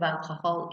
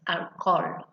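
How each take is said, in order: First: Alcohol said with the h, al-ko-hol; English with H. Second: Alcohol said without h, al-kol; alcohol, Spanish way, h silent. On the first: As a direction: pronounce the h in alcohol. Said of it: "instead of alcohol". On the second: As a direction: swallow the h in alcohol. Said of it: "it's alcohol". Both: Shown as a demonstration.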